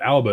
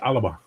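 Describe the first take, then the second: First: The word is said with two syllables. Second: The word is said with three syllables. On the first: The speaker calls it wrong. "we say it wrong. It's not Alba" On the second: The speaker calls it right. "It's Alaba"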